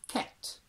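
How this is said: Said in a heightened RP accent. "heightened R P"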